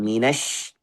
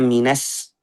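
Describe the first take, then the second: First: The final consonant is a sh sound. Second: The final consonant is a plain s sound. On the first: The speaker calls it right. "shin ini minas" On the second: The speaker calls it wrong. "bukan minas, bukan sin"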